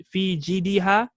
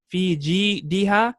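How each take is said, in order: First: Said in the usual way. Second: "fi jidiha" slowly, broken into syllables; slow model repeat. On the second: Shown as a demonstration. Teacher repeating the chapter's next word, slowly spacing out "fi jidiha". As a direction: separate and stretch "fi ji-diha" for learners.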